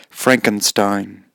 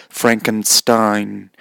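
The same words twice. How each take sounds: Both takes have the same delivery.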